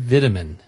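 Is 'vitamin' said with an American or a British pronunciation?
British. It is said with a British pronunciation.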